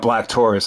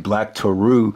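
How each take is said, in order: First: The name is said like the word Taurus. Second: The name is said as Toru, without Taurus. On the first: The speaker calls it wrong. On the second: The speaker calls it right.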